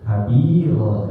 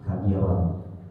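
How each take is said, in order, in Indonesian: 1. Kata "kabiran" berakhir dengan vokal terbuka yang panjang. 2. Kata "kabiran" berakhir dengan bunyi n. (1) "kalau diwakofkan jadi kabiro, jadi panjang" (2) "Jadi ujungnya itu tanwin sebenarnya"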